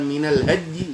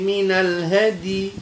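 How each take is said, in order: First: The d is said without a following i vowel. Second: The d is followed by an i vowel. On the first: The speaker calls it wrong. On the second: The speaker calls it right. "Ya-nya yang disukun, dalnya yang dikasroh"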